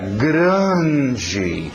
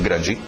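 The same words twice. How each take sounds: First: The word is said with expressive, emphatic intonation. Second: The word is said flatly, without expressive intonation. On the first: The speaker calls it right. "Fala assim, era grande. A entonação indica que grande" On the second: The speaker calls it wrong. "ele não fala assim"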